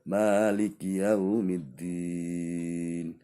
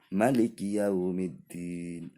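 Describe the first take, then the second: First: The vowel after the m is held long. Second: The vowel after the m is cut short. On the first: The speaker calls it right. "ini betul" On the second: The speaker calls it wrong. "Mim pada bacaan maliki itu harusnya panjang"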